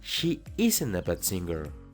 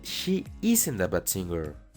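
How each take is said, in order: The two takes are said the same way.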